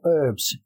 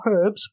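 First: The word begins with a vowel sound. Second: The word begins with an h sound. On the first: "but herbs. U-R-B" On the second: "Not herbs"

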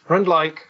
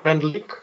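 First: The name ends with a sound like 'like'. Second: The name ends with the Czech 'lik' sound. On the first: This is the studio's intended name. "Rendlike is an intended pronunciation. I liked the like at the end" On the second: This is the Czech word for a saucepan. "Rendlik in Czech language"

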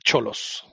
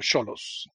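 First: The first sound is a ch sound. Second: The first sound is s-like, as in Sochi. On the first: The speaker calls it wrong. "not Cholos" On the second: The speaker calls it right. "like Sochi or Xochimilco"

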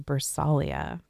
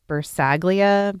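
First: The G sound is silent in the name. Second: The G sound is pronounced in the name. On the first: The speaker calls it right. "It's obviously Bersaglia" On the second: The speaker calls it wrong. "I said that her name was Bersaglia"

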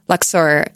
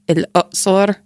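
First: The name is said the English way, as Luxor. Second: The name is said the Arabic way, as El-Uqsor. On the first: "it's not actually pronounced like that at all in Egyptian Arabic" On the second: "It's like El-Uqsor"

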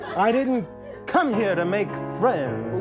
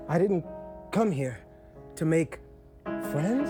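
First: It is said in a sassy, tough tone. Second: It is said in a plain, unsure tone.

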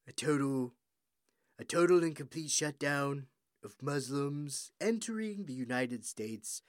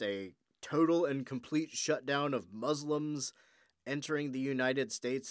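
First: It is said in a put-on impression voice. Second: It is said in the speaker's normal voice.

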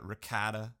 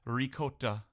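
First: Ricotta is pronounced in an American way. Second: Ricotta is pronounced in a non-American way.

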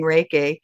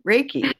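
First: The word does not rhyme with Jakey. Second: The word rhymes with Jakey. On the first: The speaker calls it wrong. "I was saying" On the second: The speaker calls it right. "it rhymes with Jakey"

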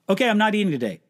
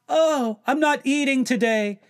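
First: It is said plainly, matter-of-factly. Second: It is said showily, making a big deal.

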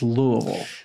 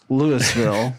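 First: It uses the local pronunciation of the name. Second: It uses another, more distant non-local pronunciation. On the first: The speaker is from the city. The speaker calls it right. "the local pronunciation is Louisville" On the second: The speaker just moved or never paid attention. The speaker calls it wrong. "or even worse"

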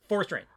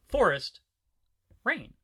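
First: The two words run together as one. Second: There is a dramatic pause between the words.

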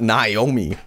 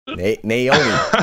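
First: The first syllable does not sound like 'nay'. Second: The first syllable sounds like 'nay'. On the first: The speaker calls it wrong. "not Naomi" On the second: The speaker calls it right. "nay, like a horse, like nay"

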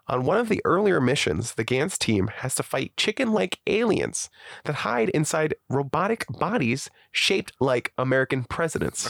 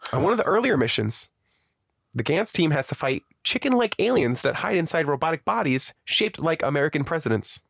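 First: It is read slowly. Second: It is read at normal speed.

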